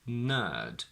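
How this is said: The R after the vowel is silent. "in non-rhotic"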